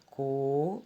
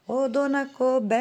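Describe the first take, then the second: First: "coberta" broken into separate beats: co, ber, ta; syllable by syllable. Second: "Coberta" called out high and loud, BER stretched long; calling the word. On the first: Teacher counting back from the last syllable, "coberta" syllable by syllable. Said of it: "vamos falar a palavra coberta". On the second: Teacher calls the word to find the tonic syllable, calling out "Coberta" with long BER. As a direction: call out "Coberta" like hailing someone, dragging BER. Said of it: "Vamos chamar a palavrinha". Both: Shown as a demonstration.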